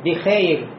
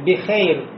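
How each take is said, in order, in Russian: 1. Гласный — дифтонг 'ey', сдвинутый вперёд. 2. Гласный — дифтонг 'ey', сдвинутый вперёд.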